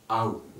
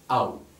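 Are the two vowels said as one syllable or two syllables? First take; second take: one syllable; one syllable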